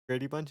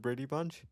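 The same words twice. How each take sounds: First: The last word ends with a G sound. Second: The last word ends without a G sound. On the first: "I like to say it with a G" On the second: "instead of"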